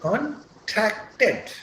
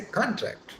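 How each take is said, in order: First: "contracted" very slowly as con-TRAC-ted; drawn-out "contracted", weight on the second syllable; second-syllable stress. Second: "contract" stressed on the first syllable; "contract" with the weight on CON; noun stress. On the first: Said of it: "That's how we will speak". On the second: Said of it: "I am using it as a noun". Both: Shown as a demonstration.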